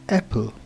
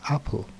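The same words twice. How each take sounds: First: The first vowel sounds like 'e' in bed. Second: The first vowel sounds like 'a' in cat. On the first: The speaker calls it wrong. "the A sound as E" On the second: The speaker calls it right. "instead of apple"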